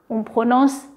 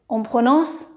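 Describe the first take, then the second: The two takes are said the same way.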